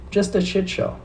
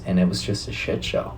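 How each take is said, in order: First: Much higher, squeaky mocking echo. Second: Said in the usual way. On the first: Repeats the phrase in a put-on voice.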